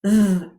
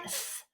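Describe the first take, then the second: First: Voiced "th" as in "this", the correct one; voiced dd to copy; right th. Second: Unvoiced "th" as in "thin", the wrong one; voiceless th to avoid. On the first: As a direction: buzz "th" with voice, the right way. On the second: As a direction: breathe "th" without voice, the wrong way. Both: Shown as a demonstration. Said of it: "Not like th".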